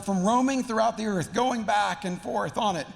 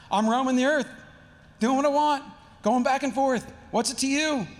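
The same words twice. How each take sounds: First: Said in the usual way. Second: Louder, higher, insolent retort; sarcastic teen. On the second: Acted. Satan answering God like a teenager, sarcastic. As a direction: throw it back like a defiant teenager. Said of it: "it's just so sarcastic".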